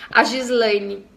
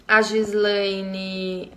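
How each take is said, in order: First: Said in the usual way. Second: Drawn-out, slow rereading of the name; slowly repeated name. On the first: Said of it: "reading the name from chat". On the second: Shown as a demonstration. Host rereading a viewer's name in live chat, slowly drawn out. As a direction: stretch Gislaine out syllable by syllable. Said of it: "rereading the name slowly".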